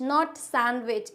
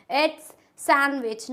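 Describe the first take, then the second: First: Sandwich said slowly with the d sounded, sand-wich; teacher slowly shows sandwich with the d spoken; wrong sandwich. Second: Sandwich said slowly as san-wich with the d silent; teacher slowly models sandwich, san-wich; correct sandwich. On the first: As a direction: model the mistake in sandwich, d sounded. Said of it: "सैंडविच होता है या सैंडविच होता है". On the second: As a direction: say sandwich carefully without the d. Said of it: "इसमें डी होता है silent". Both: Shown as a demonstration.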